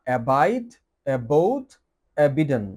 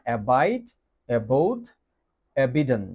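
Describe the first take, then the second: No difference in how they are said.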